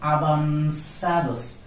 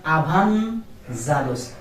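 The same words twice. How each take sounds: First: Avanzados said slowly as abansados, with v as b and z as s; correct avanzados. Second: Avanzados said slowly with an English z sound; wrong avanzados. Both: Shown as a demonstration. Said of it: "not avanzados".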